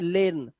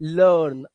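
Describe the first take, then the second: First: The vowel sounds like the 'e' in 'bed'. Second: The vowel sounds like the 'ir' in 'bird'. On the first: The speaker calls it wrong. "यहां पे लेर्न नहीं है" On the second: The speaker calls it right. "आ की आवाज"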